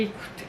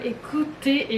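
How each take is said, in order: First: Much softer repeat, almost under the breath; quiet echo. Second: Said in the usual way. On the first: Shown as a demonstration. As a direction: drop it to a near whisper.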